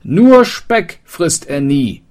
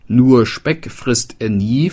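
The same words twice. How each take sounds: First: Called out loud and high while running, slow; hasty call. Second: Said in the usual way. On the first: Acted. Fleeing wanderer calls back to the townsman, hasty shout. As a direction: shout it back over your shoulder. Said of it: "rief hastig".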